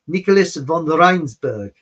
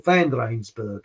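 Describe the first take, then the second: First: Name said as "von Rensburg" with von; first try "Nicholas von Rensburg", vowel as in on. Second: "Van Rensburg" corrected with van, vowel as in an. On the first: Host first names the prophet as von Rensburg. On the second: Host corrects himself to Van Rensburg. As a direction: settle on "Van Rensburg", slower. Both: Real, not acted. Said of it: "that's it".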